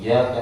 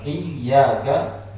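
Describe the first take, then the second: First: The y sound is short and light. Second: The y sound is doubled and pressed. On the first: It means the light of the sun. The speaker calls it wrong. "ketika ditakhfifkan" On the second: It means to you, O God. The speaker calls it right. "bukan iyyaka"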